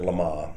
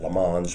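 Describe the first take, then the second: First: It is said with a French pronunciation. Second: It is said with an anglicized, spelling-based pronunciation. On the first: It is said the way locals say it. "the French pronounce it Le Mans" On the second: It is read the way it looks. "Westerners pronounce it Le Mans because it looks like that"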